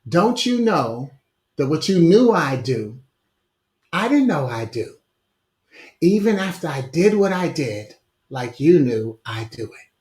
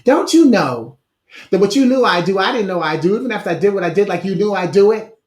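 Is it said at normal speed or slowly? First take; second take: slowly; normal speed. First: It is said very slowly. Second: It is said at normal speed.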